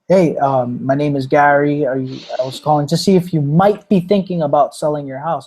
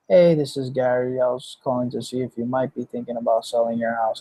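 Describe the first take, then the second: First: It is said with enthusiasm and conviction. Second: It is said in a flat, robotic way.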